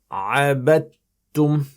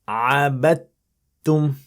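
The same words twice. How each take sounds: Both takes have the same delivery.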